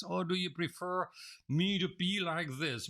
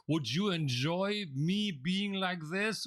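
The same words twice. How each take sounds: First: Said in the usual way. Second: Listless demo. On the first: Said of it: "Which one would you prefer". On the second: Shown as a demonstration. Trainer mocking a bored presenter for the class, slow and listless. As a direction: show them how dull a disengaged presenter sounds. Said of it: "imagine if I were to present myself like this".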